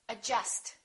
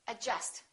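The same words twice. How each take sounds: The two takes are said the same way.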